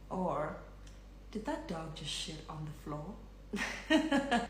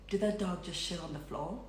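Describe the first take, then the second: First: The words are spoken slowly and softly. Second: The words are spoken at a quick, normal pace.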